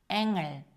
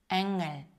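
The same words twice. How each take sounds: The two takes are said the same way.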